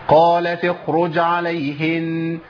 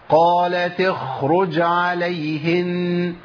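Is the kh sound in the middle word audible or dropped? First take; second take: dropped; audible. First: The kh sound is hidden and almost not heard. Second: The kh sound is clearly heard at full length. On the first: The speaker calls it wrong. "الخطا ان انا ممكن اخفي الحرف بالكليه" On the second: The speaker calls it right. "نفس الزمن دوت لما اوصلها"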